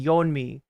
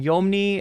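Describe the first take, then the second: First: The n sound comes before the m sound. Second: The m sound comes before the n sound. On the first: The speaker calls it right. "and it's actually Yeonmi" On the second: The speaker calls it wrong. "I'm writing Yeomni"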